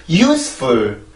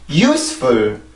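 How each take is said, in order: First: The pitch drops sharply on the second syllable. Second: The pitch drops sharply on the second syllable.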